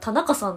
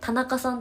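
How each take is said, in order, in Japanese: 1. 関西のイントネーションで言っています。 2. 標準語のイントネーションで言っています。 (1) "イントネーションが関西なの" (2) "人が言ったら"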